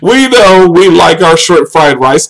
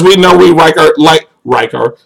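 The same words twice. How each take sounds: First: "like" slowly said with a clear L; slow restart, putting the L back in "like"; deliberate, drawn-out correction of "like"; careful corrected L. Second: "like" slipping towards "rike"; accidental R sound starting "like"; slipped L into R. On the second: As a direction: stumble on "like", its L blurred into an R. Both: Real, not acted. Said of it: "I'm speaking like I'm from China".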